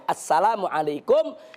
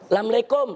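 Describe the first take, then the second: First: It is said in full standard Arabic form. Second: It is said in a clipped local Betawi style. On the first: The speaker calls it right. "Yang betul itu" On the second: The speaker calls it wrong. "apa yang dilakukan oleh masyarakat Betawi"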